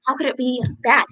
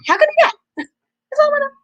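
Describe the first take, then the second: First: Said in the usual way. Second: Much higher, louder mock squeal; squeaky disbelief. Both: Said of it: "I'm like".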